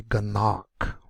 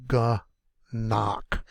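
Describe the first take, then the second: First: Said in the usual way. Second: "Ganach" slowly split as ga, then nach; broken into syllables. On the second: Shown as a demonstration. Teacher fixing a missed syllable break, word said in two pieces. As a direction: pause inside "Ganach" after the first syllable. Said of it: "forgot to break this one up".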